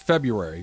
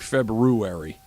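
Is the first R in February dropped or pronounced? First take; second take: dropped; pronounced. First: The first R sound is left out. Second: The first R sound is clearly pronounced. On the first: This is how people usually say it. "that superfluous R in the front. Nobody says it. It's February" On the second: This is how the word is properly spelled and said. "But it's actually February"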